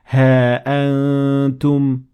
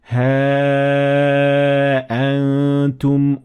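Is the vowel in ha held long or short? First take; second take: short; long. First: The vowel of ha is kept short. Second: The vowel of ha is held long. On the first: "Or ignoring it" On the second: "extend here four harakat"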